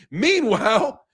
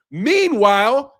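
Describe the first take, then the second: First: Said in the usual way. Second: Meanwhile stretched slowly with a rising end; drawn-out meanwhile. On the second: Real, not acted. Ranting streamer drags out meanwhile to mock immigrants' hypocrisy, slow and pointed. Repeats word for emphasis.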